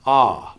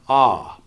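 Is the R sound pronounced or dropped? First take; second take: dropped; dropped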